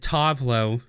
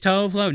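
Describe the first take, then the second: First: The name is said the way the singer does. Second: The name is said with an American pronunciation. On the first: The speaker calls it right. "she pronounces it" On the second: The speaker calls it wrong. "I'm gonna be American"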